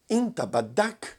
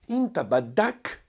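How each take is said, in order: First: It is said with a questioning tune. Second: The same.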